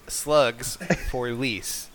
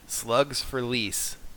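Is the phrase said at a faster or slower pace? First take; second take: slower; faster. First: The phrase is said at a slower pace. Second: The phrase is said at a normal pace.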